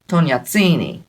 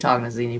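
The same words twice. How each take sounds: First: The name has an Italian-style pronunciation. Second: The name has an English-style pronunciation. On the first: This is how the original Italian families said it. "they would say Tognazzini because they're it's Italian" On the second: This is how the local community says it. "We say Tognazzini"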